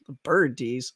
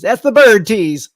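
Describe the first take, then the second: First: Said in the usual way. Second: Bird tease louder, slowed; punchline. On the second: Shown as a demonstration. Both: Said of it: "That, that's the tease".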